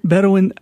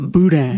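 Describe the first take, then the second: First: It is said like the word Bedouin. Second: It is said as boo-dan, two short syllables. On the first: This is how an outsider said the word. "they asked him if he ever had ... that Bedouin sausage" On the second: This is how locals say the word. "otherwise we would call it boudin"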